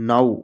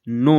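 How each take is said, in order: First: The word ends with an 'ow' sound. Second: The word ends with an 'oh' sound. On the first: The speaker calls it right. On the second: The speaker calls it wrong.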